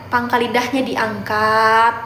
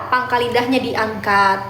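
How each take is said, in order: Both takes have the same delivery.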